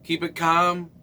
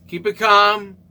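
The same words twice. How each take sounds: First: Said in the usual way. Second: Pressing the words harder the second time; louder insistent. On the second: Retold or imitated. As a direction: keep it calm, said louder. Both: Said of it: "I thought to myself".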